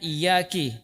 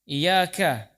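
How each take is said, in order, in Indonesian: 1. Kata ini berakhir dengan vokal i. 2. Kata ini berakhir dengan vokal a. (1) "K-nya dikasrokan" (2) "padahal fathah"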